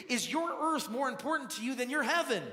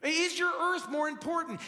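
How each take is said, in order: First: Said in the usual way. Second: Pressing repeat. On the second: Shown as a demonstration. Pastor presses his question on the congregation, louder. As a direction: repeat "Is your earth more important?" higher and louder, punching "your".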